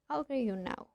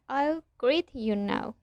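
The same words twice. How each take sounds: First: The t and y merge into a ch sound. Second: The t and y are said separately. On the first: The speaker calls it right. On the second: The speaker calls it wrong.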